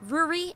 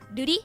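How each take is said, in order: First: The first R is not tapped. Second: The first R is a quick tap. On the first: "if we're not" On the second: "if we're tapping it"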